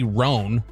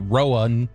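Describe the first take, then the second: First: It is said as one syllable. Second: It is said as two syllables. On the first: The speaker calls it right. "R O A N would be Roan" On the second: The speaker calls it wrong. "It wouldn't be Rowan"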